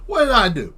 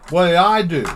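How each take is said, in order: First: "What did I do?" jumps higher, hitting WHAT; a high whining "What did I do?"; whiny high question. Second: "What did I do?" pushed out louder, stressing I; a loud exasperated "What did I do?"; exasperated question. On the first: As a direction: pitch "What did I do?" up into a whine. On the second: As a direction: blurt "What did I do?" at full volume. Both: Shown as a demonstration. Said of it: "and I say it just like that".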